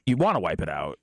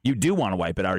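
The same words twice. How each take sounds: First: "wanna" stressed, low-pitched restatement. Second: "do" leaned on to contradict, low-pitched; stress on DO. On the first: Restating it without the "do. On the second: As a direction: insist with weight on "do". Contradicting co-host's "don't wanna. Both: Real, not acted.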